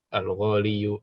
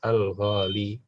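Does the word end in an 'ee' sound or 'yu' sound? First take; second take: yu; ee. First: The word ends with a 'yu' sound. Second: The word ends with a long 'ee' sound. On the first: The speaker calls it wrong. "itu berat" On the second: The speaker calls it right.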